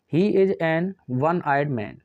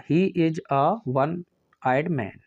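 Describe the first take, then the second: First: "an one" read slowly and evenly as in the question; slow dictation. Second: "a one" read slowly and evenly, word by word; slow corrected dictation. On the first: Teacher reading out the question sentence, slow and deliberate. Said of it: "one". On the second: Teacher dictating the corrected answer, slow and deliberate. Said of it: "ए". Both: Shown as a demonstration.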